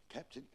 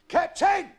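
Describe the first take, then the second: First: Small, very soft call; hushed, tentative; hesitant address. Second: High, very loud hail; long-distance shout; calling from aloft. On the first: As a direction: timidly try to get the captain's attention. Bosun, now halting and hushed. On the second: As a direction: holler down from the crow's nest. Lookout calls down from crow's nest. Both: Acted.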